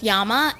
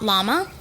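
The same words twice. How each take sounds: First: The word begins with a Y sound. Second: The word begins with an L sound. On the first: This is how it is said in South America. "if we were in South America, it would be pronounced" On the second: This is how English speakers say it. "and not"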